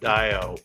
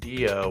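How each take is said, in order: First: The first vowel sounds like 'eye'. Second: The first vowel sounds like 'ee'. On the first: "Dio with the I" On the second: "Dio with an E"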